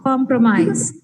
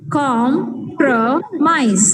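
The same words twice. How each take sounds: First: Said in the usual way. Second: Compromise drawn out very slowly, com-pro-mise; teacher modelling syllable count. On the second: Shown as a demonstration. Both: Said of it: "three syllables".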